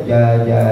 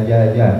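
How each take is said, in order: The two takes are said the same way.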